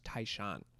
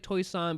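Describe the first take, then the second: First: The name is pronounced the Mandarin way. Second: The name is pronounced the local Toisanese way. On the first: This is how speakers from elsewhere in China say it. "anyone that I meet that's speaks Mandarin from like a different part of China, it's pronounced Taishan" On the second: This is how the local people say it. "they they pronounce it like Toisan"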